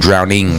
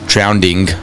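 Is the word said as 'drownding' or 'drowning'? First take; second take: drowning; drownding. First: It is said with no extra d sound. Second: An extra d sound comes before -ing. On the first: The speaker calls it right. "you're drowning" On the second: The speaker calls it wrong. "not drowning"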